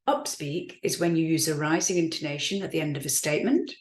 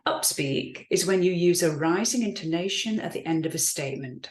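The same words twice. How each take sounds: First: The voice rises at the end of the sentence. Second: The voice falls at the end of the sentence. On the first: The speaker sounds unsure and doubting. The speaker calls it wrong. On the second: The speaker sounds confident and credible. The speaker calls it right.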